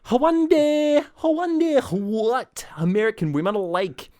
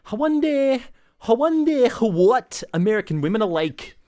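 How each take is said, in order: First: Very high, loud overdone Scottish brogue; thicker Scottish accent. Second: High, loud hammed-up Scottish; Scottish stage accent. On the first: Retold or imitated. Retelling how castmate's accent thickened nightly, overblown Scottish. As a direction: ham the Scottish up even further. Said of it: "he used to get thicker and thicker". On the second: Retelling a castmate's line from the musical, hammed-up Scottish. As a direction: belt it out in a mock Scottish brogue. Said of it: "a Scottish musical".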